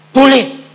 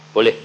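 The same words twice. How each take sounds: First: High, loud joyful cry; excited shout. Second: Said in the usual way. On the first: Retold or imitated. Preacher reliving God's yes before the congregation, joyful loud cry. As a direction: burst out with delight.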